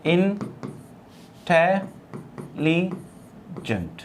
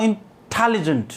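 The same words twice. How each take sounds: First: intelligent broken into four slow syllables, in-te-li-gent. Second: intelligent with the TEL syllable given prominence; stress on second syllable. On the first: Teacher transcribes intelligent for students, syllable by syllable. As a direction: say intelligent softly, pausing after each syllable. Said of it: "यदि हम इसको transcribe करें तो हम कहेंगे". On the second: Teacher shows how intelligent is spoken, stress on second syllable. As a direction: lean on the टे in intelligent. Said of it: "मैं इस तरीके से बोलता हूँ". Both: Shown as a demonstration.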